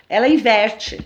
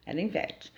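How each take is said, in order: First: Said in the usual way. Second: Ela inverte repeated much softer; soft reflective repeat of ela inverte; quiet echo. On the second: Shown as a demonstration. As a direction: let ela inverte drop to a near hush.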